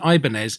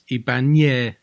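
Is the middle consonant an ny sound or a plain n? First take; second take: plain n; ny sound. First: The middle consonant is a plain n sound. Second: The middle consonant is an ny sound. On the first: The speaker calls it wrong. "it isn't Ibanez" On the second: The speaker calls it right. "it's got an enye, which is a ny sound. So it's Ibanez"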